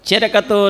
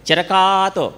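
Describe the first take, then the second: First: The middle vowel is kept short. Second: The middle vowel is stretched out long. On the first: The speaker calls it right. "నిలబెట్టేటప్పుడు నిలబెట్టాలి" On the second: The speaker calls it wrong. "ఒకళ్ళు ఎలా చదివారంటే చిరకాతో కాదు. సాగదీసేటప్పుడు సాగదీయాలి"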